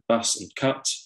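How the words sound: The vowels are said in a southern English way. "Southerners pronouncing words like bus and cut, more like"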